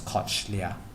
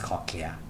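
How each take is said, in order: First: The word is sounded out following its spelling. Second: The word is said in its usual form. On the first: "I pronounce to myself as cochlea" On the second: "but the pronunciation is cochlea"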